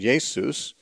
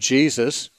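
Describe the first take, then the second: First: The name is said with Greek sounds. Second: The name is said with English sounds. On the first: "based on the Greek pronunciation" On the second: "Jesus is an English pronunciation"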